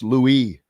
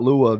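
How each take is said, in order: First: The name ends with an 'iss' sound. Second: The name ends with an 'ah' sound. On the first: The speaker calls it right. "It's Louis" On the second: The speaker calls it wrong. "it's not Lua"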